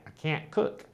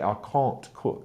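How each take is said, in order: First: Said in an American accent. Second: Said in a British accent. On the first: "For an American, it's all up here" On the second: "Whereas a British person would say"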